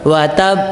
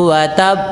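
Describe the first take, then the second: No difference in how they are said.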